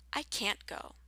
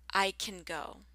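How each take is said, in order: First: "can't" with a full cat vowel; long can't. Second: "can" reduced to kin; short can. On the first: Teacher's listening drill, "can't" with a long vowel. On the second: Teacher's listening drill, "can" said short. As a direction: keep "can" short and light. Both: Shown as a demonstration. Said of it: "Listen for the difference".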